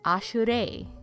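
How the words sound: The name is said with a Japanese-style pronunciation. "He says Ashure"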